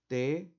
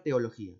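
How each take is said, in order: First: "Teología" as te, o, lo, gí, a, long pauses between; syllable by syllable. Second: Said in the usual way. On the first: Shown as a demonstration. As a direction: break "Teología" into five detached syllables. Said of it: "Cómo lo voy a segmentar". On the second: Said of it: "vamos con la palabra teología".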